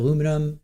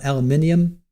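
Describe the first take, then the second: First: It has four syllables, ending in -inum. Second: It has five syllables, ending in -inium.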